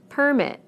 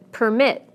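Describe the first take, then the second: First: PER-mit, the noun, falling; stress on first syllable. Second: Per-MIT, the verb; stress on second syllable. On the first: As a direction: punch PER in Permit. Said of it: "first syllable in the nouns". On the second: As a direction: punch MIT in permit, weak per. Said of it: "second syllable in the verbs". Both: Shown as a demonstration.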